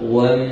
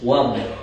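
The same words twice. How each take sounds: First: The m is held with a nasal hum. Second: The m is clear, with no nasal hum. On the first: The speaker calls it wrong. "Kita kalau dengung wam, salah terus" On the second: The speaker calls it right. "dia tak boleh dengung"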